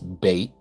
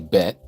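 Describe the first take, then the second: First: The vowel is long, as in 'bait'. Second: The vowel is short, as in 'bet'. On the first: The speaker calls it right. "but it's bait, like B A Y T" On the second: The speaker calls it wrong. "they say bet"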